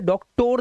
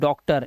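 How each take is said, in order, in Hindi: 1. आखिरी अक्षर में पूरा 'o' स्वर है। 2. आखिरी अक्षर में हल्का 'uh' स्वर है।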